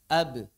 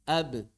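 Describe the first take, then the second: Both takes have the same delivery.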